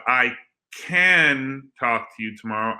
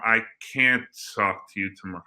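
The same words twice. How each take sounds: First: "can" set apart and stretched with a full A; pause, then lean on "can"; stressed CAN. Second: "can't" with full A and clipped t, lower; stressed CAN'T. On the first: Host testing can against can't, emphatic CAN. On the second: Host testing can't against can, emphatic negative. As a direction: drop lower and quicker, marking "can't". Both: Shown as a demonstration. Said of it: "Let's figure that out".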